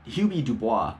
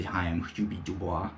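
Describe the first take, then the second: First: Said in the usual way. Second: Soft, lower mock baby voice on Hubie Dubois; Adam Sandler baby voice. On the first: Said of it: "kind of sounds like the". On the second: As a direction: mumble Hubie Dubois like a shy man-child. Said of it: "Adam Sandler's baby voice".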